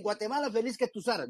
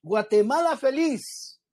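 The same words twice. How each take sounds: First: "Guatemala, feliz que tus aras" run together softly in one breath, no pause after "feliz"; run-on recital. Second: "Guatemala" rising, then "feliz" high and exclaimed on its own; as an exclamation. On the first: Preacher mimicking how everyone rushes the anthem, softly run together. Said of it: "todos dicen". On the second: Preacher correcting the congregation on the anthem, exclaimed. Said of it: "Como exclamación". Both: Shown as a demonstration.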